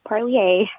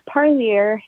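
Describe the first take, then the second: First: The name is said with a French-style sound. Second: The name is said with a plain English sound. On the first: The speaker calls it wrong. "not Parlier. Unfortunately, it doesn't have that French um, sound" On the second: The speaker calls it right. "it's Parlier"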